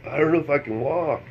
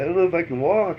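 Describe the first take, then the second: First: Put-on higher drunk whimper; a hint of tipsy helplessness. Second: Put-on higher, more pleading drunk whine; lightly imitating a drunk plea. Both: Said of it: "I'm too drunk".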